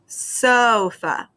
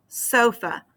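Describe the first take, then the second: First: Sofa with SO stretched out and strong; SO-fa, drawn-out demonstration; stress on first syllable. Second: Sofa said shorter, SO still stressed; SO-fa, brief demonstration; stress on first syllable. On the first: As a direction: lean long on the SO of sofa. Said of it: "syllable that you say the strongest". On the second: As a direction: say sofa compactly, stronger on SO. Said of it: "for that first syllable". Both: Shown as a demonstration.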